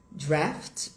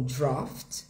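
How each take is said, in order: First: First "draft" with a front "æ" vowel; American "draft", open front a; American pronunciation. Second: Second "draft" like "drawft"; British "draft", open "aw"; British pronunciation. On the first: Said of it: "é em inglês americano". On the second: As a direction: say "draft" with a rounded back vowel. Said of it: "vai ficar no britânico O". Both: Shown as a demonstration.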